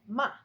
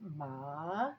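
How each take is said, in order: First: The pitch falls sharply downward. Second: The pitch goes down and then up. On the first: It means to scold. "It goes down. ... very sharp and goes down" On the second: It means horse. "that goes down and then it goes up"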